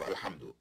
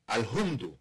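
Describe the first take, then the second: First: The second syllable has an 'a' vowel. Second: The second syllable has an 'u' vowel. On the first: The speaker calls it right. "instead of Alhamdu" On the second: The speaker calls it wrong. "if the child said Alhumdu"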